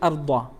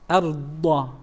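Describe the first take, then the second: First: The d sound is short and quick. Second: The d sound is held a little longer. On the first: The speaker calls it wrong. "You don't say arda" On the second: The speaker calls it right. "There is this lengthening of the letter"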